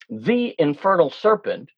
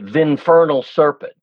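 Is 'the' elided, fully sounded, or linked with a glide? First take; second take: fully sounded; elided. First: 'The' is sounded as a full separate syllable. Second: 'The' is squeezed into the next syllable, exaggerated. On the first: The speaker calls it wrong. "you don't say the infernal serpent" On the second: The speaker calls it right. "To over-exaggerate, you'd say"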